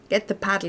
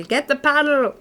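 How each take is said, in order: First: Said in the usual way. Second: Shout. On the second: Acted. Calls for the paddle, louder.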